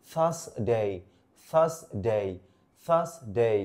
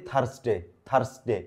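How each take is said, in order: First: "থার্সডে" as "thaas... day", no R; correct English pronunciation. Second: "থার্সডে" with sounded R and short "de"; common mispronunciation. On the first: Teacher correcting learners, "থার্সডে" carefully pronounced "thaas-day" without R. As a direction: split "থার্সডে" before a long gliding "day". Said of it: "না". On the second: Teacher quoting what we say, "থার্সডে" mispronounced with R and short "de". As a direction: say "থার্সডে" quickly with an R. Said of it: "আমরা বলি". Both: Shown as a demonstration.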